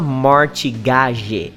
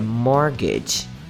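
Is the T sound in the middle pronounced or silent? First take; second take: pronounced; silent. First: The middle T sound is pronounced. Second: The middle T sound is silent. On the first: The speaker calls it wrong. "Você não precisa falar mortgage" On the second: The speaker calls it right. "é mortgage"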